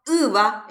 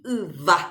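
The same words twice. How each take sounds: First: "yva" with the weight on the opening Y; stress on first vowel. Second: Slow "yva" with the weight on the final A; stress on final vowel. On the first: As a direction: say "yva" as Y-va, falling on the A. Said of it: "tenemos que pintar el acento". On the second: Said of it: "La vocal tónica es la final". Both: Shown as a demonstration.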